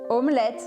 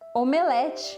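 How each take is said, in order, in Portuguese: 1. Ela é pronunciada com sons franceses. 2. Ela é pronunciada com sons portugueses. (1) "na verdade vem do francês" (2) "palavras em português que a gente usa"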